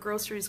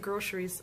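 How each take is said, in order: First: The middle consonant is a plain s sound. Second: The middle consonant is an sh sound. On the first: "there's no H in the word groceries" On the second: "Why you say groceries?"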